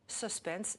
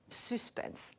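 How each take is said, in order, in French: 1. Le mot a une prononciation à l'anglaise. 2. Le mot a une prononciation à la française. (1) "Notre langue reprend suspense à l'anglais" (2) "en français"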